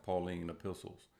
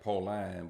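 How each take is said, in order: First: "Pauline" said Paul-een; "Pauline" with a long ee in the second syllable; correct pronunciation. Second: "Pauline" with a long i in the second syllable; misreading "Pauline" as Paul-line; spelling pronunciation. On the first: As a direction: pronounce "Pauline" to end like "lean". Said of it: "but it's pronounced Pauline epistles". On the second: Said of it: "it's spelled like Pauline". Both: Shown as a demonstration.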